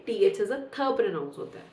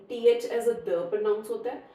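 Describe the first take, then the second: First: "थ" as an aspirated T-like sound. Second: "द" as a voiced D-like sound. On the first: Teacher tells parents of other words, "थ" clearly aspirated. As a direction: pick out "थ" with a puff of air. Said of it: "थ पढ़ना है". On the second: Teacher tells parents of some words, "द" clearly voiced. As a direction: pick out "द" as the voiced TH. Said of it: "कई words में द". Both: Shown as a demonstration.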